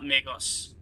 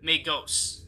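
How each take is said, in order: First: MAGOS with a short, reduced final O. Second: MAGOS with hard G and a long O. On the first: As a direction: say MAGOS as "MAY-goss". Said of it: "not Magos". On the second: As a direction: say MAGOS as "may-GOHSS". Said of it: "pronounced with a hard G, long O". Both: Shown as a demonstration.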